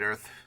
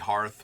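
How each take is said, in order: First: The word starts with a vowel, no h sound. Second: The word starts with a clear h sound. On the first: The speaker calls it wrong. "I'm just gonna go back to calling it Rings of Bright Earth" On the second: The speaker calls it right. "It's supposed to be Hearth"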